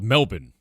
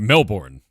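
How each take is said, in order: First: The last syllable sounds like 'bin'. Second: The last syllable sounds like 'born'. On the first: This is how Australians say it. "But you're saying it's called Melbourne, the bin" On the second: This is how the speaker's own country says it. "for us, that's the born identity, and it'd be Melbourne"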